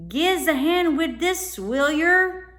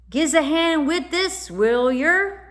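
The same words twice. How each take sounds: First: High, loud cockney urchin; a scruffy cockney lad calling for help; cockney boy. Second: High, loud cockney urchin voice; cockney boy. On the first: Boy from the boat asks the children for help, high cockney urchin voice. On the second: Boy from the boat asks the children for help, loud cockney urchin. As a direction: call out like a scruffy London lad. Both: A narrator's reading.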